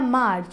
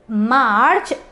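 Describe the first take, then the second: First: The R sound is dropped entirely. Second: The R sound is clearly stretched out. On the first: The speaker calls it wrong. "you cannot find the R in a March" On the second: The speaker calls it right. "you have to stretch it R"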